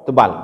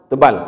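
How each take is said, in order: No difference in how they are said.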